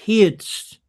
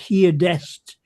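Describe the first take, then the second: First: The word is said with one syllable. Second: The word is said with two syllables. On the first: The speaker calls it right. "It's heardst" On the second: The speaker calls it wrong. "It's not heardest"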